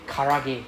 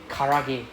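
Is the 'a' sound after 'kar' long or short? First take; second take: short; short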